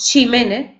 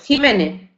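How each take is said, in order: First: The name begins without the Spanish J sound. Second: The name begins with the Spanish J sound. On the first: This is how it is said in Valencia. "si estamos en Valencia, pues diremos Ximénez y no Jiménez" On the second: This is how it is said in Andalusian speech. "en el habla andaluza, ¿verdad? Diremos Jiménez"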